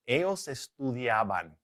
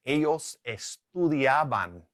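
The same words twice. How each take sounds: First: Said in the usual way. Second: Slow Spanish example; drawn-out teacher's demonstration; slow model answer. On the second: Shown as a demonstration. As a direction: say it slowly for learners.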